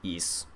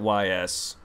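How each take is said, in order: First: The name is said as one word, like east. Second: The name is said as two letters, Y S. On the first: "I heard the exact pronunciation. It's it's East" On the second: "I always pronounced it Y S"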